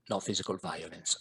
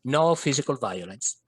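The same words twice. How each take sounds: First: Dropped low and soft; softer lower repeat. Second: Said in the usual way. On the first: Shown as a demonstration. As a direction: say it again, quietly.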